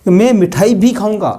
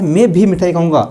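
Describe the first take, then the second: First: Emphasis on "मिठाई भी"; stress on मिठाई. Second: Emphasis on "मैं भी" at the start; stress on मैं. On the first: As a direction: lift मिठाई भी, then fall on the verb. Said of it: "उस मिठाई पे बल देने के लिए". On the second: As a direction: lean on मैं, then run on through the sentence. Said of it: "मैं" पे बल प्रदान हमें करना है". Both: Shown as a demonstration.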